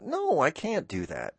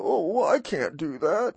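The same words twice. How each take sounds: First: Matter-of-fact acceptance. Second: High, whiny give-up voice, a little mocking; mock defeated whine. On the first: Real, not acted. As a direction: say it as plain fact, without self-pity. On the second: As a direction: imitate someone quitting before trying, pitched up. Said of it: "and go".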